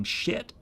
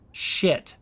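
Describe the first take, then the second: First: Shit barely voiced, a soft breathy near-whisper; mouthed shit. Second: Shit said short and soft, mouth moving fully; spoken shit. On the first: Contrasting mouthing against speaking, mouthed shit nearly silent. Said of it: "versus mouthing". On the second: Showing viewers the word shit spoken aloud, soft. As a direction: say shit with big mouth movements. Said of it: "when I'm saying shit". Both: Shown as a demonstration.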